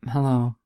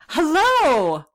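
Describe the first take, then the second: First: It is said in a flat, unexcited tone. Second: It is said in an excited tone.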